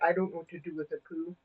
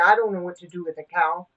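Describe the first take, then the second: First: It is said in an imitated Scottish accent. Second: It is said in the speaker's own non-Scottish accent.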